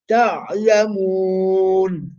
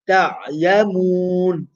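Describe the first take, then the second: First: The vowel before the final n is held moderately long. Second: The vowel before the final n is held briefly. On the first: "Or I can recite four" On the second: "So two"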